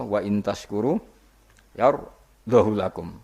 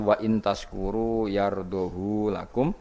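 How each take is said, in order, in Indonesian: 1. Vokal setelah 'h' dibaca pendek. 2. Vokal setelah 'h' dibaca panjang. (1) "lan tampa isba kados kira kita" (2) "sertane isba berarti normal"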